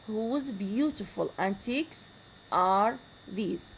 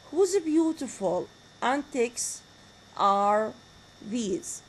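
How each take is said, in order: First: "Whose beautiful antics are these?" in one slow run, falling at the end; smooth falling tune. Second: "Whose beautiful antics" slow, then "are these" dropping, chopped into pieces; slow split demo. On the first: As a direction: read it whole and let it fall. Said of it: "They are all having falling intonation". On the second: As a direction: lay it out slowly, phrase by phrase. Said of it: "Look at the intonation that we have". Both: Shown as a demonstration.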